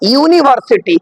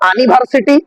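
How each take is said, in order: First: The word begins with a 'yoo' sound. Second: The word begins with an 'uh' sound. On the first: The speaker calls it right. "কারণ ইউ উচ্চারণ হচ্ছে" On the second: The speaker calls it wrong. "এখানে কি বলবো, আনিভার্সিটি? না"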